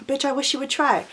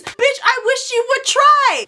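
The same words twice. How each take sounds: First: Soft, cool challenge; same dare, tossed off softly at normal pitch; understated dare. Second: High, drawn-out indignant dare; defiant comeback. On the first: Repeats the comeback, toned down. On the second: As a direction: throw the dare back at full pitch. Retold defiant comeback in quarrel. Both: Retold or imitated.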